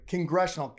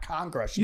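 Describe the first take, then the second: First: Said in the usual way. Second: "congressional" with an open CON at the start; mispronounced "congressional". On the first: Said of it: "not congressional". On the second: Shown as a demonstration. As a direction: open up the first vowel of "congressional" into CAHN. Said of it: "You said congressional".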